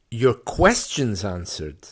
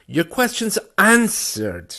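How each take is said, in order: First: The middle word carries the stress. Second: The last word carries the stress. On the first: Questions are answered, not statements or other thoughts. "Not just your your statements, ... but your questions answered" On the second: The questions are answered rather than ignored. "if I put the stress in the third place"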